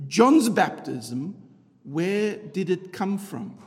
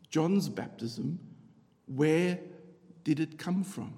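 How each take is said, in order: First: Each word drawn out slowly; slow emphatic question. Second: Softer, slow, reflective; quiet slow repeat. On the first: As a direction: lean on John's baptism, slowly. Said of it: "repeated slowly". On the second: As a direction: repeat it softly and slowly. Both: Shown as a demonstration.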